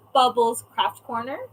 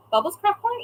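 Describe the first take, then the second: First: Said in the usual way. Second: Puzzled question. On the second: Real, not acted. Reading the chat, puzzled and much higher. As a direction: pitch jumps higher on Corner, questioning.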